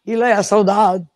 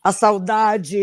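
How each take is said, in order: First: "saudade" Portuguese style, final vowel dropped to "saudad"; Portuguese pronunciation demo. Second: "A saudade" Brazilian style, final "de" said as "dji" in full; Brazilian pronunciation demo. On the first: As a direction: clip the end of "saudade" like a fadista. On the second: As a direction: give "A saudade" its full Brazilian last syllable. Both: Shown as a demonstration. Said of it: "eles abreviam a última nota e a última sílaba".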